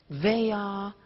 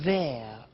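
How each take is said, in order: First: It is said as two full words. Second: It is said as one contracted syllable.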